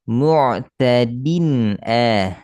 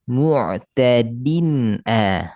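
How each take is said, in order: Both takes have the same delivery.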